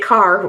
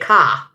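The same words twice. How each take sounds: First: The final r sound is clearly pronounced. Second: The final r sound is dropped. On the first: This is how people elsewhere say it. "We don't say car" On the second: This is how people in the speaker's home region say it. "we say car. C A, car"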